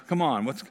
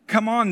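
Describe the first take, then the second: First: Said in the usual way. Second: Louder and higher, pressing; pushy crowd demand. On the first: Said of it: "kind of like crowding around him". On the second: Retold or imitated. Crowd pressing Aaron for gods, loud demanding call. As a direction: push him like an anxious mob. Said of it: "driven a little bit of anxiety".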